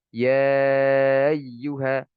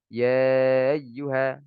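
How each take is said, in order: First: The glottal stop is softened away. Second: The glottal stop is softened away.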